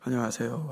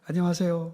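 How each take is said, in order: First: It sounds gloomy and weighed down. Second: It sounds cheerful and higher in pitch.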